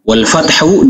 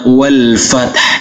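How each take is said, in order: First: The word ends with a full vowel. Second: The final h is heard lightly without a vowel. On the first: The word is read in full without stopping. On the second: The reciter stops on this word.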